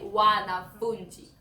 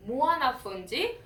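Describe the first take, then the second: First: Wanafunzi begun straight on wa, without any m; plain w- at the start. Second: Mwanafunzi begun with a rounded m-w sound; mw- at the start. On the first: Teacher showing the plural for many students, w- at the start. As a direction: say "wanafunzi" opening on a clear w. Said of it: "But when there are many plural". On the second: Teacher showing the word for one student, mw- at the start. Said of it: "when there's only one student". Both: Shown as a demonstration.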